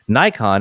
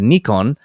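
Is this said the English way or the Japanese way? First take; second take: English; Japanese. First: It is said plainly, with no pause or nasal ko. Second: A slight pause comes before a nasal ko.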